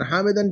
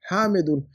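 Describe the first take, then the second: First: हामिदन said with the wrong -an ending as a question. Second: हामिदुन with a clear -un ending and a falling tune; correct ending. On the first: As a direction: quote the mistake हामिदन with a questioning rise. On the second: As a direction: give the right form हामिदुन firmly. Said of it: "हामिदन क्यों?". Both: Shown as a demonstration.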